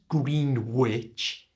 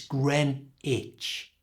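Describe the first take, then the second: First: It starts with green and sounds the W. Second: It starts with gren and drops the W. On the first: The speaker calls it wrong. "It's not Greenwich" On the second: The speaker calls it right. "Make the first part Gren and don't pronounce the W"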